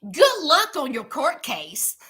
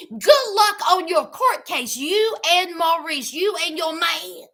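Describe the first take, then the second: First: Said in the usual way. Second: Pointed, sarcastic farewell; sarcastic send-off. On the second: Real, not acted. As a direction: wish her luck with a sneer.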